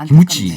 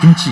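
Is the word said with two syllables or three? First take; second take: three; two. First: It is said as three syllables, ki-mu-chi. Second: It is said as two syllables, kim-chi. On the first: The speaker calls it wrong. "일본 사람들 다 기무치라 그래요. 발음이 안 돼요" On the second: The speaker calls it right. "김 하면 김, 치 하면 치"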